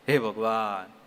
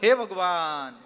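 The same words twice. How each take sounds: First: It sounds pained, like a cry after getting hurt. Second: It sounds frightened, like a startled cry of fear. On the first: The speaker has just been injured. "આ ચોટથી નામ લીધું" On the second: The speaker has suddenly been frightened. "એક ભયથી"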